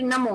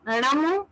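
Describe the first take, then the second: First: "नमो" with a plain dental n; tongue forward on the teeth for the n of "नमो"; common pronunciation. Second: "णमो" with a retroflex ṇ at the start; correct pronunciation. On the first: Teacher shows the everyday form, "नमो" with plain dental n. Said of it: "हम लोग प्रचलित नमो बोलते हैं". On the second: Teacher shows the correct mantra word, "णमो" with retroflex ṇ. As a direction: curl the tongue back for the first sound of "णमो". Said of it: "सही उच्चारण णमो है". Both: Shown as a demonstration.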